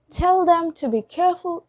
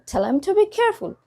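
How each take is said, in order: First: The word 'them' is said in full. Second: The word 'them' is reduced, losing sounds.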